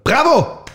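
It is shouted aggressively, like a command.

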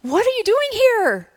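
It sounds joyful and excited.

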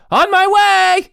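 It is said excitedly, like an exclamation.

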